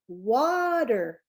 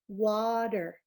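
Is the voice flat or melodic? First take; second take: melodic; flat. First: The word is said with a lively, melodic voice. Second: The word is said in a flat voice. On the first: The speaker calls it right. "We're going to use the music in your voice" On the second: The speaker calls it wrong. "that wasn't really great that I did the last one"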